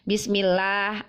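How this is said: It is said with an Indonesian accent. "menggunakan lahjah Indonesia"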